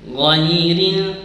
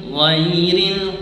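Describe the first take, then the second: The two takes are said the same way.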